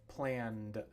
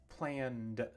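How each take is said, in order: Both takes have the same delivery.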